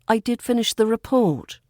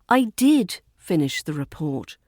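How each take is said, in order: First: The stress falls on the word report. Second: The stress falls on the word finish. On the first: The point is which thing was completed. "here we emphasised what was finished, the report" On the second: The point is that the action was completed. "Here we emphasise the verb"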